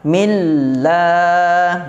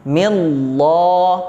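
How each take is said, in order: First: The l sound is thin and light. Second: The l sound is thick and heavy. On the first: The speaker calls it right. "tetapi bacaannya ialah millah" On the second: The speaker calls it wrong. "jangan ditebalkan, bukan millah"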